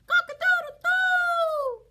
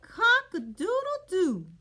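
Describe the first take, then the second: First: High, loud crowing; piercing wake-up cock-a-doodle-doo; rooster crow. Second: Said in the usual way. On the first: Acted. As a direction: crow it out like a rooster, last note held long. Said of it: "wakes up all the animals with the cock-a-doodle-doo".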